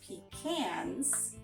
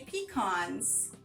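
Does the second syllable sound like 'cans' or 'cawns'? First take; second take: cans; cawns. First: The second syllable sounds like 'cans'. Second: The second syllable sounds like 'cawns'. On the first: "spell it with the C A N S" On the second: "spell it with an A W N"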